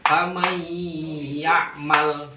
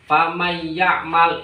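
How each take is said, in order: First: The nasal hum is held longer. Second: The nasal hum is short and rushed. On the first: The speaker calls it right. "Yang lebih tepat agak lama, didengungkan di ya-nya" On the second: The speaker calls it wrong. "Jangan cepat. Famay ya'mal itu salah"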